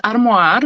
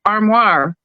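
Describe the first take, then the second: First: "armoire" said the French way, arm-WAHR; French pronunciation. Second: "armoire" said English-style, ARM-war with r; anglicized "armoire"; English pronunciation. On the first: Bilingual narrator says the word in French, "armoire". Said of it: "I'm gonna say it in French". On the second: Narrator gives the English "armoire" after the French. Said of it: "like a wardrobe". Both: Shown as a demonstration.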